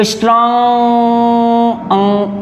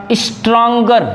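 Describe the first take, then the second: First: "स्ट्रॉन्ग" with the vowel held long, then "अं"; drawn-out syllable. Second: Said in the usual way. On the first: Shown as a demonstration. Teacher showing the first syllable, "स्ट्रॉन्ग" drawn out. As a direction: stretch the middle of "स्ट्रॉन्ग" on a steady note. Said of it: "ये आ रहा है". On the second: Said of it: "जैसे".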